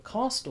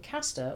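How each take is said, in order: First: "Castor" with an exaggerated long "ah", as "Cahstor"; mock British vowels. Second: Said in the usual way. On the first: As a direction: mockingly correct it to a drawn-out "Cahh-stor". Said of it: "must make use of only long vowel sounds". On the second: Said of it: "or should I say".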